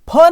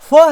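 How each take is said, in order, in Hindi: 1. इस ध्वनि में दोनों होंठों से हवा फूँकी जाती है। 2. इस ध्वनि में ऊपर के दांत नीचे के होंठ को छूते हैं। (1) "ये फ नहीं है" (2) "आपके ऊपर के जो दांत होते हैं ना, नीचे के ओंठ को अंदर की तरफ टच करते हुए"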